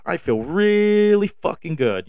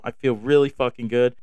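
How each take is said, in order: First: "really" drawn out high and slow; stretched elation. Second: Said in the usual way. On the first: Real, not acted. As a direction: savor every word, riding high.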